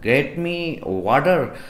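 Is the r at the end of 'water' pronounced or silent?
pronounced. The r at the end of water is pronounced. "American में हम कहते हैं ... जहाँ पर वाटर में आर उच्चारण है"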